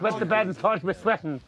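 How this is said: It is said in an Irish accent.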